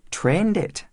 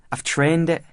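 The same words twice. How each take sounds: First: "Trained it?" pitched high as a question; "Trained it?" echoed back much higher, asking. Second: Proud schoolboy statement, pitched up; higher-pitched, defiant claim of authority; daring assertion. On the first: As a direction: query "Trained it?" in a raised pitch. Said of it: "asked Mister Farthing". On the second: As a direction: state it as if daring anyone to challenge you. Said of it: "as though daring anyone to challenge this authority". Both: A narrator's reading.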